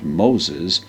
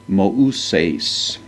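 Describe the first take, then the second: First: The name is said as Moses, English style. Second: The name is said as Mouses, Greek style. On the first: "not Moses" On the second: "the Greek version of the name Moses"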